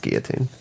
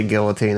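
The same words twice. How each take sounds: First: Put-on "guillotine" with a silent L, gee-uh-teen; "guillotine" without the L; corrected pronunciation. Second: Put-on "guillotine" with the L sounded, gill-uh-teen; "guillotine" with a clear L; common pronunciation. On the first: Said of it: "it's pronounced guillotine". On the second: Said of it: "They say guillotine". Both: Shown as a demonstration.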